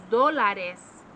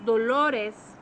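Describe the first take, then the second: First: Dólares said DO-la-res, with an a in the middle; stress on first syllable. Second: Dolores said do-LO-res, with an o in the middle; stress on second syllable. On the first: Teacher showing the word for dollars, dólares stressed DO-la-res. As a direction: hit the DO of dólares, drawn out. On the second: Teacher showing the word for pain, dolores stressed do-LO-res. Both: Shown as a demonstration. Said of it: "The way you say it makes a difference".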